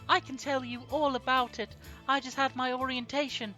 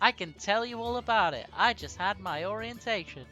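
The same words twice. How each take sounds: First: It is said in a higher-pitched voice. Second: It is said in a lower, normal pitch.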